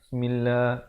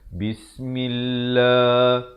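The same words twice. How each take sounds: First: The first syllable 'bis' sounds muffled and unclear. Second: The first syllable 'bis' sounds clear and distinct. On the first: The speaker calls it wrong. "itu tak jelas. Ba-nya tak jelas kedengaran" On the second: The speaker calls it right. "Dia mestilah bis, itu jelas"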